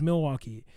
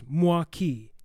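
First: Said in a standard broadcast pronunciation. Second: Said with the first syllables squeezed together. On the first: This is how news reporters say it. "if you hear it on the news" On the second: This is the original native pronunciation. "the true pronunciation is Mwa-Kee"

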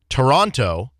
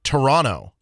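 First: The second T is clearly pronounced. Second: The second T is dropped.

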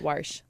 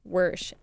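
First: The vowel sounds like 'war'. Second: The vowel sounds like 'wer'. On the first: This is how other family members say the name. "they say it Warsh, like Waterloo" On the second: This is the speaker's own way of saying the name. "you say it like W-E-R"

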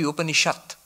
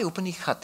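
First: The middle consonant is a 'sh' sound. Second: The middle consonant is a 'kh' sound. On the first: "It should be Upanishad, not kha, sha" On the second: "why Upanikhat?"

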